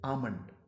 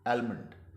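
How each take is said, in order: First: No L sound; the first vowel is drawn out. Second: An L sound is heard after the vowel. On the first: The speaker calls it right. "एल को तो आपको सरीहन minus करना है" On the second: The speaker calls it wrong. "गलत इसका तलफ़ुज़ अदा किया जाता है वो है आलमंड"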